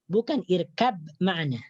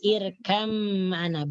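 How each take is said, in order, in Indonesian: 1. Bunyi b diucapkan terpisah sebelum m. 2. Bunyi b menyatu dengan bunyi m setelahnya. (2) "Jadi dimasukkan ke dalam huruf mim"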